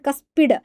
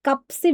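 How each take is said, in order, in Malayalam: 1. s ശബ്ദം p-ക്ക് മുൻപ് വരുന്നു. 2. p ശബ്ദം s-ന് മുൻപ് വരുന്നു. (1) "കസ്പിഡ് വാൽവ് എന്നാണ് പറയുക" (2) "കപ്സിഡ് എന്ന് പറയരുത്"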